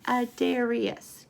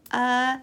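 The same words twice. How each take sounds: First: Said in the usual way. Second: Adarius broken into four separate beats; syllable by syllable. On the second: Shown as a demonstration. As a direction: say Adarius as uh, dare, ree, us. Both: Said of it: "Can we count the syllables?".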